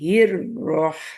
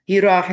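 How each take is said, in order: First: The r sound is held long. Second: The r sound is rushed and short. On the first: The speaker calls it right. "शद है रॉ पे तो थोड़ा टाइम चाहिए" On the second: The speaker calls it wrong. "इसको हिराह नहीं लगे, हिराह यानी जल्दी नहीं करना"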